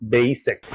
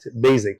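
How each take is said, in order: First: The middle consonant sounds like an s. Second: The middle consonant sounds like a z. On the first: The speaker calls it right. "الحقيقه الصوت هنا س بتاع الاس" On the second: The speaker calls it wrong. "اغلب الناس بتقول basic"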